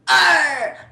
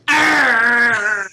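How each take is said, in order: First: The R sound is weak and barely drawn out. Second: The R sound is stressed and drawn out. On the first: "that is gonna be the worst pirate I've ever heard in my life" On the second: "put more emphasis in like the R"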